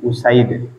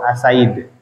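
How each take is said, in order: First: The name begins with a "u" vowel. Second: The name begins with an "a" vowel. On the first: The speaker calls it right. "tapi u Usaid" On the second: The speaker calls it wrong. "bukan asid atau asaid"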